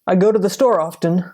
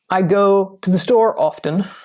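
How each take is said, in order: First: Spoken fast with store and often run together. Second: Spoken at a normal pace with words kept apart.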